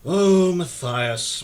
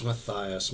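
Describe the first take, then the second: First: Slow, drawn-out weary "Oh, Matthias"; weary drawn-out sigh. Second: "Matthias" said much softer and lower; weary and softer. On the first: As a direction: stretch "Oh, Matthias" out slowly like a tired sigh. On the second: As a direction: let "Matthias" drop away in weariness. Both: A narrator's reading. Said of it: "he said wearily".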